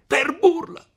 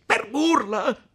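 First: Very high, loud falling yell; furious shout. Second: Slow, loud, incredulous rising question; shouted echo. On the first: Renzo shouting down at seated Agnese, furious. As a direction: explode with the word in full rage. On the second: Renzo glaring at Agnese, outraged and disbelieving. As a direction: throw her word back at her, outraged. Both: Acted. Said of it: "gridò Renzo".

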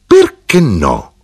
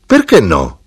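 First: Slow, determined challenge; imposing insistence. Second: Said in the usual way. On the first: A narrator's reading. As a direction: draw it out, bent on getting your way. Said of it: "era armata di volontà di impormi".

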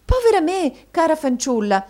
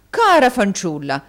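First: High, loud cry of surprise; madam starting in surprise; startled exclamation. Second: Loud echo of his wife's surprise; effusive husband's exclamation; exclaiming. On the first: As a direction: exclaim as if taken aback. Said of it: "esclamò Madama Mantalini, arretrando sorpresa". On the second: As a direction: cry it out with a punched first word. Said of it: "esclamò Mantalini". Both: A narrator's reading.

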